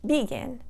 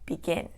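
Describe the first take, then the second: First: The stress is on the first syllable. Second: The stress is on the second syllable. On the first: The speaker calls it wrong. "not begin" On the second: The speaker calls it right. "the stress is going to go on the last syllable"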